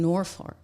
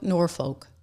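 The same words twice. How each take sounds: First: The name does not end like the word folk. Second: The name ends like the words poor folk. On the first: The speaker calls it wrong. "did I say that right?" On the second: The speaker calls it right. "it was like poor, poor, poor folk, Norfolk. There we go"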